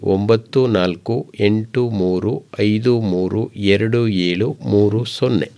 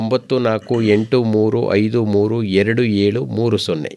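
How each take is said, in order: First: The digits are read slowly and deliberately. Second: The digits are read at a normal, quicker pace.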